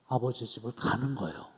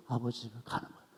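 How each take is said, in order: First: Said in the usual way. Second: Fast and much softer, tossed off; quick soft repeat. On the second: Shown as a demonstration. Preacher repeating his point to the congregation, quick and soft. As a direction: rattle it off under your breath.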